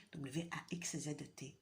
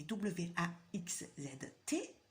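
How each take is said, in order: First: Said in the usual way. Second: Letters spelled one by one, slowly. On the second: Shown as a demonstration. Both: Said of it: "T'entends bien?".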